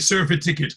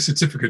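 First: It is said like two words, surfy ticket. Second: It is said with the usual four syllables. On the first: "she'd say surfy ticket" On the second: "She wouldn't say certificate"

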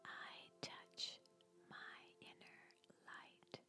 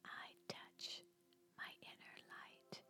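First: It is spoken in a whisper. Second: It is spoken in a whisper.

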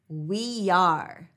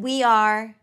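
First: A Y glide links the two words. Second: The words are said separately without a glide.

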